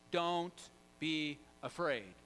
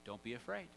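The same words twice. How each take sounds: First: Slow, spaced-out delivery; drawn-out, deliberate quote; measured reassurance. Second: Low, softer, matter-of-fact order; short, low-key instruction; understated command. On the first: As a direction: give each word its own weight. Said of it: "we play that in juxtaposition". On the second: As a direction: state it simply and quietly as a command. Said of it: "Jesus just gives them a command". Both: Retold or imitated.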